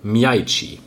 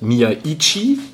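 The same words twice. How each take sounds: First: The glide into the first i is smooth. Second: The glide into the first i is choppy. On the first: The speaker calls it right. "Ausgesprochen wird er, wenn man zumindest Philipp Herwagen glauben darf" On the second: The speaker calls it wrong. "Nicht wie ich oder auch Wolf das oft ausspricht"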